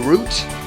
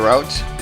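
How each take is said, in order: First: The word rhymes with boot. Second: The word rhymes with out. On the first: "Some people say route" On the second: "I say route, ... no confusion with the word root"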